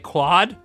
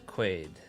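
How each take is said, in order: First: The vowel sounds like 'ah', as in 'squad'. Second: The vowel sounds like 'ay', as in 'made'. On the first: The speaker calls it wrong. "They say quad? ... That's not even close" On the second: The speaker calls it right. "My real name is Quaid"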